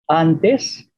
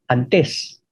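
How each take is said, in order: First: The stress is on the first syllable. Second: The stress is on the last syllable. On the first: "palabras llanas en español" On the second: "en Bicol es"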